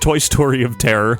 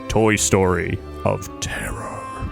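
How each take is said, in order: First: The title is said in a plain, ordinary way. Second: The title is said in a dramatic, theatrical way.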